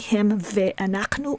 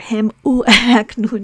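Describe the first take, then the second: First: A full ve syllable comes before anachnu. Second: An oo vowel sound comes before anachnu. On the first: "here we don't say" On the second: "here we don't say"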